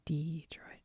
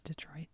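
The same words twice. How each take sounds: First: It is said in a Southern US accent. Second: It is said in a plain general accent. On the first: "as the Southerners say" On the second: "we all know it's Detroit"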